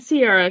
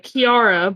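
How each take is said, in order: First: The name begins with an S sound. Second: The name begins with a K sound. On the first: The speaker calls it wrong. "not Sierra" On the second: The speaker calls it right. "it's Kiara"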